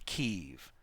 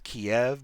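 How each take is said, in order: First: The name is said in its newer form. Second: The name is said in its older form. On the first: It uses the name the city was renamed to. "pronouncing it as Kiev because Ukraine renamed it" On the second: It uses the name the city was known by for a long time. "pronouncing it as Kiev because that's what it was known as for a long time"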